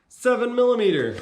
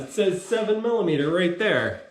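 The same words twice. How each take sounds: First: "Seven millimeter" said higher and louder, falling on "millimeter"; stress on seven millimeter. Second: Said in the usual way. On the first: Real, not acted. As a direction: punch out "Seven millimeter" in surprise. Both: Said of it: "oh, it does".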